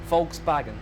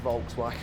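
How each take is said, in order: First: The word is said with a German pronunciation. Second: The word is said with an English pronunciation. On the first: "It's how the Germans pronounce it" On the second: "I think I'll just stick with Volkswagen"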